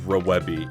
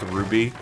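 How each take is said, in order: First: The name is said with three syllables. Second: The name is said with two syllables. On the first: The speaker calls it wrong. "I'm going to continue to like pronounce it like that because it's funny" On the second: The speaker calls it right. "it's supposed to be pronounced Ruby"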